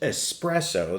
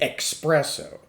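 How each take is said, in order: First: It begins with a plain s sound, no k. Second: It begins with a ks sound, like an x. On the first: The speaker calls it right. "it's pronounced espresso, there's no X in it" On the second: The speaker calls it wrong. "Do not say espresso"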